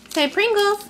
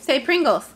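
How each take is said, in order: First: High coaxing. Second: Said in the usual way. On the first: Real, not acted. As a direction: coax the word out with a high bright lift.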